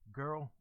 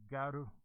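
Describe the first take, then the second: First: It is said plainly with no added final vowel. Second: It has a Japanese-style vowel added at the end.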